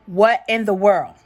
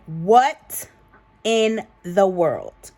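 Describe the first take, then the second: First: Loud, baffled exclamation; incredulous. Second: "what", "in the world" spaced out slowly; loud WHAT, pause, then slow "in the world"; emphatic disbelief. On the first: Opening the Pakistan lady story, incredulous. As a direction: exclaim it in one run, louder. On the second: Repeating the reaction to viewers, slow emphatic disbelief. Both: Real, not acted.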